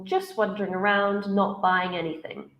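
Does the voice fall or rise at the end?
falls. The voice falls at the end. The idea is finished. The speaker calls it right. "should be falling"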